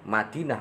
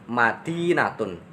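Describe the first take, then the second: First: The word stops short with no final ending. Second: The word ends with a full '-tun' ending.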